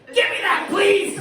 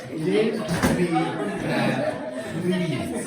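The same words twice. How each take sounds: First: It is said in a demanding, rude tone. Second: It is said in a kind, gentle tone.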